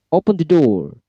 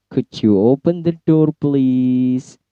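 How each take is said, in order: First: Raised-pitch order with a falling end; high command intonation. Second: Polite request with a long, held "please"; request intonation. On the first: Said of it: "itu akan menggunakan intonasi yang tinggi". (perintah tegas bernada tinggi) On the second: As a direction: ask courteously, stretching "please". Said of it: "expressing request biasanya menggunakan low intonation". (permintaan sopan, "please" dipanjangkan) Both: Shown as a demonstration.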